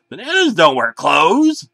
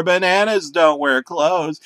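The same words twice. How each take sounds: First: Louder, higher desperate yell; scream. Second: Slow, louder drawn-out yell; slower scream. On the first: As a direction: yell it at the bananas. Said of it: "I screamed". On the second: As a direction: keep yelling it, slower. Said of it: "and screamed some more". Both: A narrator's reading.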